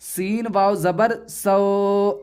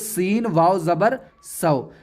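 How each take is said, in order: First: The final vowel is long and drawn out. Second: The final vowel is short, not drawn out. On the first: The speaker calls it wrong. "ऐसे नहीं पढ़ा जाएगा" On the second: The speaker calls it right. "बल्कि"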